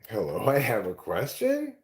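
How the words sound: The voice rises at the end. It is a question. "it sounds like a question"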